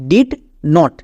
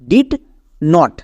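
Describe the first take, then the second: First: It is said as two separate full words. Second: It is said as two separate full words.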